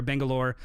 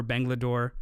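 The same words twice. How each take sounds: First: Said in the usual way. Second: Bangalore slipped into "Bangladore", with a stray D; slip of the tongue. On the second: Real, not acted. Podcaster listing shoot locations, misspeaking Bangalore with an extra D. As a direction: stumble on Bangalore, adding a D before the last syllable. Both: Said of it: "or sorry, Bangalore".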